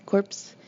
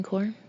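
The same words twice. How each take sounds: First: "Corps" said with the p and s sounded; "Corps" ending in an audible ps; Corps as corpse. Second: Said in the usual way. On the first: Acted.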